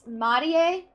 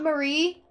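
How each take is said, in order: First: The name is pronounced the Japanese way. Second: The name is pronounced the English way. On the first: The speaker calls it right. "I'm pretty sure it would be pronounced Marie" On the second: The speaker calls it wrong. "I was pronouncing it in English"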